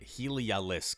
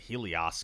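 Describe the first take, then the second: First: The name is said with four syllables. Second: The name is said with three syllables. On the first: The speaker calls it right. "I'm mispronouncing it" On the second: The speaker calls it wrong. "I always said Heliosk"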